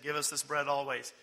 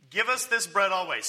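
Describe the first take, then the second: First: Said in the usual way. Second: Louder, emphatic repeat of the request; keen, punched-up demand; eager plea. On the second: Acted. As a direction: plead for it with eagerness.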